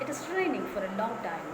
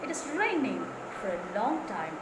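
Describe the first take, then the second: First: No word is stressed; the sentence sounds flat. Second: The words raining and long are stressed. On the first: The speaker calls it wrong. "They are not giving stress anywhere" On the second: The speaker calls it right. "I'm giving stress to raining, ing verb, and also for long"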